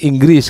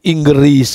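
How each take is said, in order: First: No vowel is heard between g and r. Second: An e vowel is heard between g and r. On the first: This is the Indonesian pronunciation. "Inggris Indonesia itu Inggris kan" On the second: This is the Malaysian pronunciation. "Kalau bahasa Malaysia itu huruf E-nya di tengah itu. Jadi Inggris gitu"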